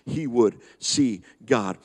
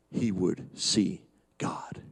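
First: Said in the usual way. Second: Hushed whisper, almost no voice; awed whisper of a promise. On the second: Acted. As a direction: breathe it out softly in awe. Quoting Job's hope, hushed.

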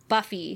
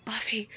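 First: Faint whispered name; dying whisper. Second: Very soft, barely voiced name; softer whisper. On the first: Retold or imitated. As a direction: breathe the name as he fades. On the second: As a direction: let the name fall almost silent. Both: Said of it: "he says one last".

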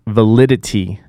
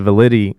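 First: Validity with all four syllables sounded; corrected pronunciation. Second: Validity with a syllable swallowed, "va-LID-ee"; slipped pronunciation. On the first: Podcaster fixing a stumbled word, validity fully pronounced. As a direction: say validity carefully, restoring "-i-ty". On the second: Podcaster stumbling on a word mid-grievance, validity slurred short. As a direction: rush validity so the "it" drops out. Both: Real, not acted.

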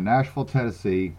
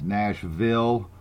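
First: Southern "Nashville", second syllable reduced to "ful"; Southern accent. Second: "Nashville" slowly, with a full clear "ville"; careful enunciation. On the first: Real, not acted. Host owning up to his upbringing, Southern accent. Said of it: "I just can't help that Southern upbringing of mine". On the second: Shown as a demonstration. Host clarifying for listeners, "Nashville" slowly and carefully enunciated. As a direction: spell out both syllables of "Nashville", slowly. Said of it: "those of y'all that don't understand what I'm saying".

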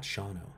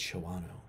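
First: "Shawano" as SHAW-no, low and soft; two-syllable pronunciation. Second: "Shawano" as sho-WAH-no, low and hushed; three-syllable pronunciation. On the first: Imitating someone announcing a Mandela effect, "Shawano" as SHAW-no. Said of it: "it's not pronounced Shawano". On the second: Imitating someone revealing the supposed truth, "Shawano" as sho-WAH-no. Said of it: "It's Shawano". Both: Retold or imitated.

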